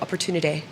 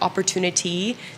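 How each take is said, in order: First: The ending of the word is dropped or clipped. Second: The ending of the word is fully pronounced. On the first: "the endings of words, just sort of dropping them" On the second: "instead of like"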